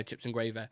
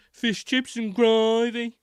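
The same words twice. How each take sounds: First: Said in the usual way. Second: High, loud, very drawn-out Brummie; Brummie accent. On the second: Retold or imitated. Mimicking the donut seller's catchphrase, strong Brummie accent. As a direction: stretch it out in exaggerated Birmingham tones. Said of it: "It's what he said, gravy".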